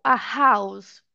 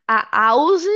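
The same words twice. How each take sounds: First: "a house" slowly with a breathed H; H sounded. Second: "a house" slowly as "a ouse"; silent H. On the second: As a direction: leave out the H in "a house". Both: Shown as a demonstration. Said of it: "se a palavra é muda ou não".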